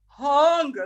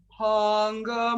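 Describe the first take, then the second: First: The word is said with an open, deep, hungry vowel. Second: The word is said plainly, without much feeling. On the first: "like I'm really hungry" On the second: "instead of just going"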